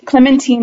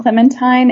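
First: The name is said with a French pronunciation. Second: The name is said with an English pronunciation. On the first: "if it is French ... Clementine is right" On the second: "I've been calling it Becoming Clementine"

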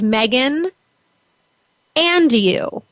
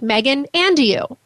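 First: The name is said hesitantly, without confidence. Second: The name is said boldly, with confidence. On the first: The speaker calls it wrong. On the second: The speaker calls it right.

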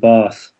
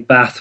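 First: It is said with a southern English accent. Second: It is said with a northern English accent.

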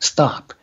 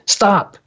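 First: The word is said calmly and matter-of-factly. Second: The word is said loudly and forcefully. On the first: It is a simple statement of fact. "It just is a statement of fact" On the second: It sounds like an urgent command. "my inner voice goes, stop, you know, like that"

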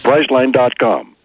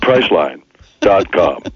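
First: It is said as one name without a pause. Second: There is a pause before the dot com. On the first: The dot com is part of the company's name. The speaker calls it right. "That was the way I had to pronounce it" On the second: The dot com is separate from the company's name. The speaker calls it wrong. "Not Priceline. .com"

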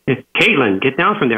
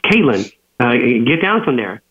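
First: It is said in a raised voice. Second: It is said in a calm voice.

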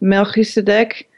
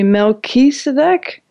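First: The name is said with a European pronunciation. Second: The name is said with an American pronunciation. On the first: "more in European, it would be more Melchizedek" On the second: "in like with an American accent, maybe Melchizedek?"

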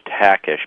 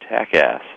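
First: The name ends with an 'ash' sound. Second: The name ends with an 'ass' sound. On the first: The speaker calls it right. "It's actually as though it were spelled T-A-C-K-I-S-H" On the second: The speaker calls it wrong. "I was once introduced to 500 people. True story is Joe Takass"

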